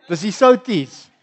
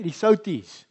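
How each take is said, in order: First: Slower, louder, laughing through souties; laughing repeat. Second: Said in the usual way. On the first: Shown as a demonstration. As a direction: repeat it with a chuckle.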